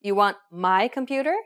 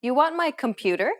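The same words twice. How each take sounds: First: My stretched and emphasised in a question; stress on MY. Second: My kept light, computer rising as a question; question, unstressed MY. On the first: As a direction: hit the word my, then rise on computer. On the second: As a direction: ask it with no weight on my. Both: Shown as a demonstration. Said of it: "stressing particular words in a sentence".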